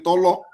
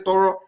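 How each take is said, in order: First: The middle consonant is an L sound. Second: The middle consonant is a clear R sound. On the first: The speaker is Igbo. "the Igbo man will say Tolo" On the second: The speaker is not Igbo. "they know how to say Toro"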